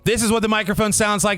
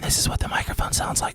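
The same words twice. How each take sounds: First: It is spoken very loudly. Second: It is spoken in a whisper. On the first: "with a really loud voice" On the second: "when I whisper"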